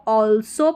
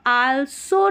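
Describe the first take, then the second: First: "also" said as "awl-so"; सही उच्चारण. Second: "also" said as "aal-so"; गलत उच्चारण. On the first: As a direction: round the first vowel of "also" to aw. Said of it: "also पढ़ते हैं". ("also" को "ऑलसो" बोलें) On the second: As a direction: open the first vowel of "also" to a long aa. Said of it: "also नहीं पढ़ना है". ("also" को "आलसो" बोलें) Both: Shown as a demonstration.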